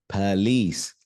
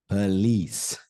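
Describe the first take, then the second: No difference in how they are said.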